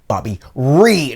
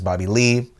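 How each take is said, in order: First: The second word begins with an R sound. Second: The second word begins with an L sound. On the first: The speaker calls it wrong. "he yells out" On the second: The speaker calls it right. "sees me as Bobby Lee"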